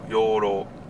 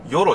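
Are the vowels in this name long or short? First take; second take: long; short. First: The vowels are drawn out long. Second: The vowels are short and clipped. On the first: The speaker calls it right. "ちょっと伸ばすよ" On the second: The speaker calls it wrong. "ヨロじゃないよ"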